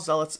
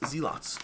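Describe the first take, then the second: First: It is said with the standard pronunciation. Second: It is said the way it is spelled.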